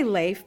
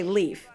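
First: [name] said as "layf", with an ay vowel; ay sound in [name]; pronunciation demo. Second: Leaf said as "leef", with a long ee; pronunciation demo. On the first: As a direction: say [name] to rhyme with safe. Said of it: "how do you pronounce my name?". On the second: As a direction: say Leaf to rhyme with beef. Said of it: "but you guys say Leaf". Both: Shown as a demonstration.

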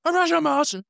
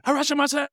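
First: "Arashimase." said high without the h, half-mock; mock chef correction "Arashimase.", high pitched; Japanese greeting. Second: "Harashimase!" called out high with a strong h, half-mock; mock restaurant greeting "Harashimase!", high and bright; Japanese greeting. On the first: Recalling the Curb restaurant episode, the chef's corrected "Arashimase." said high. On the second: Recalling the Curb restaurant episode, shouting "Harashimase!" high. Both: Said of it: "I just think about the episode".

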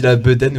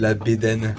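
First: "bedaine" with a schwa-like "eu" in the first syllable; "bedaine" opening on "beu", not "bé"; own pronunciation. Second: "bédaine" with a closed "é" in the first syllable; "bédaine" opening on "bé", not "beu"; Québécois pronunciation. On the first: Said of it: "je dis la bedaine au lieu de". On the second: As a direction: say "bédaine" as "bay-DENN". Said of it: "au lieu de la bédaine". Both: Shown as a demonstration.

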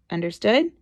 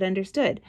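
First: UNDERSTOOD rising as a question; questioning check. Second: UNDERSTOOD as a level statement; compliant answer. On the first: Mother checking her son got the warning, UNDERSTOOD rising. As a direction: firmly ask "Understood?", lifting the end. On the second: Son accepting mother's warning, UNDERSTOOD stated evenly. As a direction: answer "Understood" matter-of-factly, no question lift. Child's answer to parent's check. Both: Retold or imitated.

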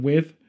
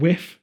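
First: Said in the usual way. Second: "whiff" with an F sound ending it. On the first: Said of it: "instead of with". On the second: Shown as a demonstration. Showing a British dropped TH, "whiff" ending in F. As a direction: end "whiff" on F in place of TH. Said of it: "quite a lot instead of with".

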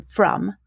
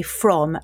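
First: "from" said as "frum"; Northern Irish pronunciation, "frum" for "from"; Northern Irish vowel. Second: Said in the usual way. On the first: Shown as a demonstration. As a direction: give "from" a short u, like "drum". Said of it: "rather than from". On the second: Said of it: "practicing how to say from".

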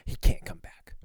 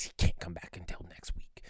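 First: Imitated forceful, angry stage whisper. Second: Angry whisper. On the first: Teacher banning the child after third time, forceful angry whisper. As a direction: whisper it harder, as a final ban. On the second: Retold or imitated. Teacher whispering to mom about the child, angry whisper. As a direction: whisper it like a cross Sunday school teacher. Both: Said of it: "whispering to my mom in a very angry voice".

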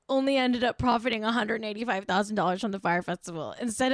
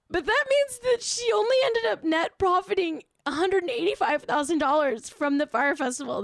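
First: Said in the usual way. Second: Hammed-up fake crying, pitched way up; mock sob. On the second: Mourning a celebrity's fine to viewers, hammed-up fake sob. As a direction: pretend to weep over her lost money.

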